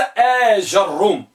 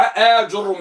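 First: آج الروم with ja after the long آ; fatha on jim. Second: آج الروم with ju after the long آ; damma on jim. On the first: Teacher recapping the fifth type, open jim. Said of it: "بفتح الجيم". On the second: Teacher recapping the fourth type, rounded jim. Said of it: "بضم الجيم". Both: Shown as a demonstration.

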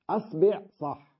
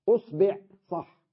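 First: أصبع said asbeʕ, a then e; أصبع with fatha on the hamza; a variant. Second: أصبع said usbeʕ, u then e; أصبع with damma on the hamza; u variant. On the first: (أصبع بفتح الهمزة) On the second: (أصبع بضم الهمزة) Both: Shown as a demonstration. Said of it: "فيها عشر لغات".

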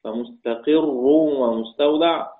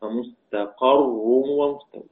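First: فمستقر as "fa-mustaqirrun", slow, with an i after the qaf; kasra on the qaf. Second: فمستقر as "fa-mustaqarrun", slow, with an a after the qaf; fatha on the qaf. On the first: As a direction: recite فمستقر with kasra on the ق, "qirr". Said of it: "بكسر القاف". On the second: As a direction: recite فمستقر with fatha on the ق, "qarr". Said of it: "والباقون بفتحها". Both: Shown as a demonstration.

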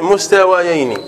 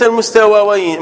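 First: مستويين with kasra on the waw, mustawiyayn; correct kasra reading. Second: المستويين read as the wrong form with fatha on the waw, almustawayayn. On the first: Teacher gives students the correct reading after the wrong one. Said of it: "وليس المستويين، مستويين". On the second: Teacher shows students the wrong reading to avoid. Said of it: "وليس المستويين". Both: Shown as a demonstration.

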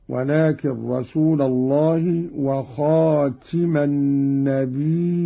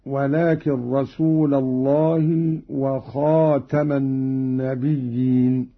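First: "وخاتم" as khatima, "النبيين" with a hamza; slow recitation, i in "وخاتم", "النبيين" as nabii'iin; active-participle reading. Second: Said in the usual way. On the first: Shown as a demonstration. Teacher showing Qalun's reading, "وخاتم" said khatima with i. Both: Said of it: "على أنه اسم فاعل".

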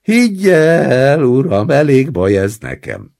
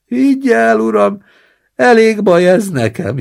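First: Crying. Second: Put-on high, loud whining old man; wailing. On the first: Acted. Old man sobs to the roommate so the grandson feels ashamed, loud. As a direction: sob it out to shame the grandson. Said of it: "sírtam". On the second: Old man in the basin wails to his roommate, high and loud. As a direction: moan it out like a pitiful invalid.

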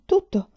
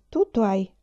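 First: "tutto" much higher and louder, falling; emphatic repeat. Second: Said in the usual way. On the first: A narrator's reading. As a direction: stress hard on "tutto". ("tutto" ripetuto con forte enfasi, molto più acuto) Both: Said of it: "ripeteva Enlan".

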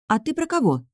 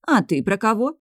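First: "А ты про кого?" high, falling at the end; puzzled question. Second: "А ты про кого?" high, rising at the end; returned question. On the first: Girl asks cook "А ты про кого?", high, falling query. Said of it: "спросила я". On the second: Cook turns "А ты про кого?" on girl, rising. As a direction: bounce back "А ты про кого?" with a rising tune. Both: A narrator's reading.

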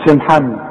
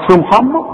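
First: سي محمد with a thin, light s; correct light s. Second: سي محمد with a thick emphatic s; wrong heavy sin. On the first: Quran teacher models the right light sin. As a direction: say سي محمد with a clean plain sin. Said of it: "السين سين". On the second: Teacher mocks a student's heavy سي محمد. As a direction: mimic the mistake, سي said like صي. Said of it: "مش سي محمد". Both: Shown as a demonstration.

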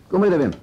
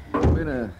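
First: Loud, higher call of "Kom binnen, Wim." toward the door. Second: Said in the usual way. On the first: Acted. Commissaris calling the young man Wim into the office, loud higher call. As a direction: call him in from across the room.

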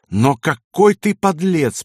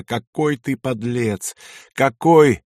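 First: Slow, high, emphatic condemnation; drawn-out, raised scornful reproach; contemptuous. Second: Slow reproach, swelling at the end; drawn-out, pained accusation; moaning. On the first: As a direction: throw it in his face with disgust. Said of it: "повторила Кайса и плюнула в лицо". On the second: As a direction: moan it in anguished disbelief. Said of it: "простонала она". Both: A narrator's reading.

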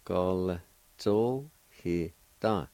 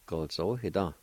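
First: "Gol zo he da" drawn out very slowly, syllables spaced; slow careful model. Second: Said in the usual way. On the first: Shown as a demonstration. Teacher modelling the word for learners, very slowly. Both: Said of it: "like this".

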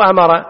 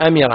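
First: "أمر" said with the wrong vowel on the middle letter; "أمر" as the mistaken form to avoid; النطق الخاطئ. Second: "أمر" said amira, with i on the middle letter; "أمر" in its correct form amira; النطق الصحيح; correct vowel. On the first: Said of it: "مو أمر، أمر، هكذا اللفظ". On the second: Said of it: "هكذا اللفظ". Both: Shown as a demonstration.

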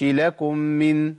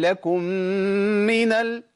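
First: لكم من with the mim cut and not merged; wrong tajweed demo; wrong merge. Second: لكم من with the doubled mim held; tajweed demo; higher correct merge. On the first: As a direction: recite لكم من without the held doubled mim. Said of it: "ما أقولش". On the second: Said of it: "ولا أقول". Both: Shown as a demonstration.

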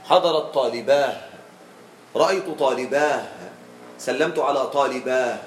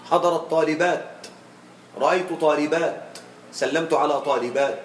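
First: Long aa closing in h on "طالباه"; pausal haa. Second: Careful teacher's demo, final t sounded in "طالبات"; pausal taa. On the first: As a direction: end "طالباه" on a breathed h instead of t. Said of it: "ويجوز قليلا بالهاء". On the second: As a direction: end "طالبات" on a clear, vowelless t. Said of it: "يوقف غالبا بالتاء". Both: Shown as a demonstration.

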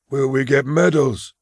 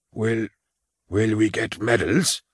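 First: Higher, eager and hopeful; eagerly. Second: A touch of a quaver, hesitant and stumbling; nervous old soldier, faltering on the first word. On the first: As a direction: asks again like a child hoping for a prize. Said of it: "repeated eagerly". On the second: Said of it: "in a quavering voice". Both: Acted.

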